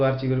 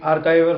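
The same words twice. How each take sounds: First: आर्चीवर said as "ar-chee-ver", with a ch sound; आर्चीवर: "आर-ची-वर", ch instead of k; alternative pronunciation "archiver". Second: आर्काइवर said as "ar-kai-ver", with a hard k; आर्काइवर: "आर-काइ-वर", k sound in the middle; archiver pronounced "arkaiver". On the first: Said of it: "जो भी pronunciation देख लेना तुम". (आर्चीवर का दूसरा उच्चारण "आर-ची-वर") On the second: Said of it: "कुछ लोग आर्चीवर भी कहते हैं". (आर्काइवर का उच्चारण "आर-काइ-वर") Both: Shown as a demonstration.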